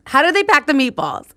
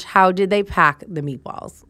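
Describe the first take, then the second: First: Higher and louder, with "pack" punched; incredulous exclaim. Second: Said in the usual way. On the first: Real, not acted. Asking viewers how the movers packed the meatballs, in loud disbelief. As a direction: repeat it in rising disbelief.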